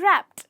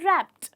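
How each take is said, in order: No difference in how they are said.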